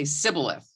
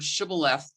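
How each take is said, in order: First: The word begins with an 's' sound. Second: The word begins with a 'sh' sound. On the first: "They say Sibboleth" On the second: "pronounce the word Shibboleth differently"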